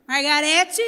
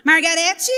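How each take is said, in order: First: Firm call of the name like a mother; mãe chamando a atenção. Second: Loud, firm call of the name. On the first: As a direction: call her name to make her pay attention. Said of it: "essa voz, minha mãe falava comigo". (chamando o nome como mãe que exige atenção) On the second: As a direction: call her name so she has to listen. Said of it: "essa irmã falou desse jeito comigo". (chamado firme e mais alto do nome) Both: Retold or imitated.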